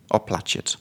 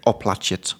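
First: "Oplaciet." repeated softer, near whispered; repeating a word. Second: "Oplaciet." read as o-pla-chit, falling; reading a word. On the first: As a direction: try "Oplaciet." again, quieter. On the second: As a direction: sound out "Oplaciet." carefully. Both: Shown as a demonstration. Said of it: "it says here".

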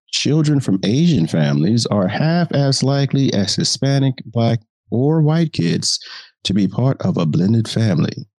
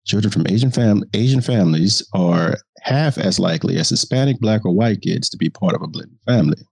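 First: Reporter voice. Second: Said in the usual way. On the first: Acted. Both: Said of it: "the reporter voice allows me".

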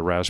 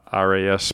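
First: Ras said as one word rhyming with gas. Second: Spelled out letter by letter as R A S. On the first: Naming the brain part again, ras said as one word. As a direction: read ras as a single short word, not letters. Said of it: "R A S part of your brain". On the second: Explaining the brain part to viewers, R A S spelled out as letters. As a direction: say R A S as three separate letters. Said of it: "the ras part of your brain". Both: Shown as a demonstration.

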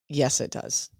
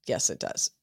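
First: Said in the usual way. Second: Soft whispered repeat of agreement; whispering her agreement back; whispered echo. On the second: Real, not acted. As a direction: breathe it out under your breath. Agreeing, then echoing softly.

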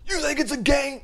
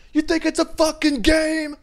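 First: High, raised mock rapper yell; imitated scream. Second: Full-out high, loud rap yell; mock rapper scream. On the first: [name] confronting [name], high mock yell. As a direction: yell it high, holding a little back. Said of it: "just the way he screams". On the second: What he wanted to yell, full-out loud rapper scream. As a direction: let rip like a screaming rapper. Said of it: "I wanted to be like".

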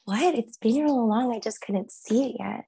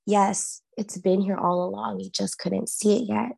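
First: Higher, echoing it back in disbelief; stunned wonder. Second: Steady, even voice of revelation; calm inner voice. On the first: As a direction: repeat it as it dawns on you. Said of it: "And I was like". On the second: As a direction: say it like a clear voice inside your head. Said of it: "this voice, so clear". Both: Retold or imitated.

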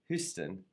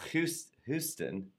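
First: Said in the usual way. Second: "Houston" stumbled over, started twice, slow; stumbling pronunciation. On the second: Shown as a demonstration. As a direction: trip over "Houston", restart the word. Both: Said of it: "I have a little trouble with my pronunciations".

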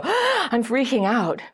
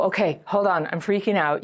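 First: Gasp, then a higher, drawn-out panicky cry; hammed-up sudden freak-out; acted panic. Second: Composed, matter-of-fact admission of panic; measured self-check. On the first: Dater whose attachment wound suddenly shows up, acted panic. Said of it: "you suddenly go". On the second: Acted. Dater with tools noticing the panic, measured self-check. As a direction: calmly catch yourself and report it. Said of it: "you go slowly, you can go".

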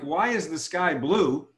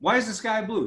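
First: "Why is the sky blue?" drawn out; slow question. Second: Curious, higher repeat; "Why is the sky blue?" lifted up high; higher question. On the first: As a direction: ask it slowly and deliberately. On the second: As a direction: ask it again, pitched higher. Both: Shown as a demonstration. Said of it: "if I ask you a question like".

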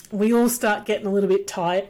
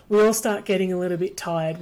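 First: Talking through hiccups. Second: Said in the usual way. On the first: Real, not acted. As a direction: hiccup breaking the words. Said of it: "I've got the hiccups now". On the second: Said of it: "Pardon me, I've got the hiccups now".

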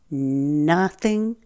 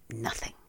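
First: "nothing" said firmly and stressed; "nothing" stressed firmly, mid-volume; emphatic nothing. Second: "nothing" dropped very soft and lower; "nothing" murmured very softly, lower. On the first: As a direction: land "nothing" hard and flat. Emphatic list of refusals. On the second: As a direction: let "nothing" fall away almost unheard. Final soft repeat. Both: Real, not acted.

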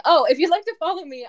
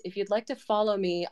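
First: High, fast and loud restart; sudden burst of energy. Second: Said in the usual way. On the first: Real, not acted. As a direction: jump back in brightly and quickly. Restarts the sentence with more energy.

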